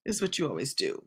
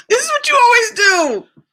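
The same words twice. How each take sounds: First: Much softer muttered repeat; quiet mutter. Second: Much higher and louder exasperated scolding; exasperated shout. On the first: Host mutters the complaint again to herself, much quieter. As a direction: mutter it under your breath. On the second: Host yells at someone off-camera, exasperated shout. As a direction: yell it out in exasperation. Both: Real, not acted.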